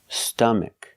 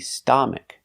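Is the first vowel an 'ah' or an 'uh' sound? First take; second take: uh; ah. First: The first vowel is a short 'uh' sound. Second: The first vowel is an open 'ah' sound. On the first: The speaker calls it right. "It's a short sound. Uh, like cup and up and cut" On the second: The speaker calls it wrong. "It's not ah like father"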